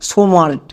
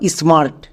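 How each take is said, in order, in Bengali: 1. s ও m-এর মাঝে একটি স্বরধ্বনি যোগ করা হয়। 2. s ও m ধ্বনি স্বরধ্বনি ছাড়াই মিশে যায়। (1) "সোমার্ট বলে কোনো ইংরেজি ওয়ার্ড হয় না" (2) "পুরো ওয়ার্ডের উচ্চারণ কি দাঁড়ালো"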